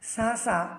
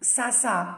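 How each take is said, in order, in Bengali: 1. ব্যঞ্জনটি একটি নরম th ধ্বনি। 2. ব্যঞ্জনটি একটি হিসহিসে s ধ্বনি। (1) "সার উচ্চারণ হবে" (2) "সিন উচ্চারণ করার সময়"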